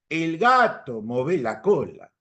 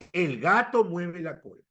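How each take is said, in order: First: It is said in an Argentine accent. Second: It is said in the speaker's own accent. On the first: "Tienes tu amigo argentino y te dice" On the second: "yo digo"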